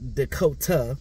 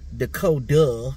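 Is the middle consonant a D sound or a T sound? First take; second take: T sound; D sound. First: The middle consonant sounds like a T. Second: The middle consonant sounds like a D. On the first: The speaker calls it wrong. "not Dakota with a T" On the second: The speaker calls it right. "Dakota with a D"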